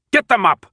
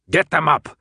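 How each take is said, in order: First: High, loud shouted command; shouted order. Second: Louder barked command; barked order. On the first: Jansen repeats the order to the guards, shouting. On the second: Jansen barks at the guards, commanding. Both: Acted. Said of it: "Jansen barked".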